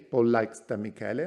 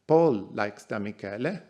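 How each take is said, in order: First: The stress is on Da Michele. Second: The stress is on Paul.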